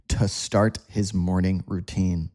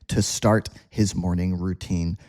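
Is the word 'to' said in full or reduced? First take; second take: reduced; reduced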